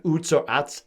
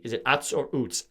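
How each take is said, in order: First: Utz said first as "oots", then as "uhts"; two ways to say Utz. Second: Utz said first as "uhts", then as "oots"; ask: is it "uhts" or "oots"; two ways to say Utz. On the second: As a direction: Utz said both ways, questioning. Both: Shown as a demonstration. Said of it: "I don't know how that's pronounced".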